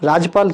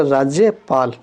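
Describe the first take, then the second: First: राजपाल with no y, "raaj-paal"; incorrect form. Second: राज्यपाल with a clear y, "raaj-ye-paal"; correct form. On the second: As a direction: sound the y in राज्यपाल. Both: Shown as a demonstration. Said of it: "शुद्ध रूप हमारा राज्यपाल".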